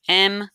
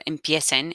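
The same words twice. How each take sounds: First: "Empiecen" split into three separate syllables with pauses. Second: Said in the usual way. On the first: Shown as a demonstration. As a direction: say "Empiecen" one syllable at a time, em, pie, cen. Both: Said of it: "divide my verb empiecen into three syllables".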